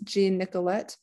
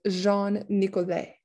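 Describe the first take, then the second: First: The name is said with English sounds. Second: The name is said with French sounds. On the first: "I pronounce this as" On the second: "but it's a French name, so it'd be"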